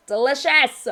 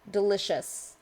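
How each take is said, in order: First: Louder, higher DELICIOUS with relish; hammed-up fangirl emphasis; emphatic gushing. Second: Said in the usual way. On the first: Repeats word louder, gushing.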